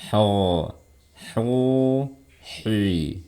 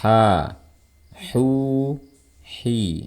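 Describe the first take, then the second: First: The sound is held back inside the mouth. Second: The sound is pushed freely out of the mouth. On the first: The speaker calls it wrong. "Jangan kayak gini" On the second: The speaker calls it right. "Jadi dorong suaranya keluar"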